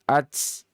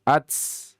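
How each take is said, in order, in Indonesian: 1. T di akhir dilepas dengan gema yang kuat. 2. T di akhir dilepas dengan gema yang kuat.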